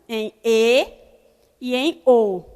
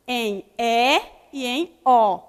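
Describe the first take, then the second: First: E and O said closed, as "Ê" and "Ô"; closed vowels. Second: E and O said open, as "É" and "Ó"; slow, open-mouthed "E" and "O"; open vowels. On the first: Teacher explaining the circumflex, closed E and O. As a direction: narrow the mouth on "E" and "O". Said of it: "Indica som fechado". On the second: Teacher repeating the rule for pupils, open E and O. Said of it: "Indica som aberto". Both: Shown as a demonstration.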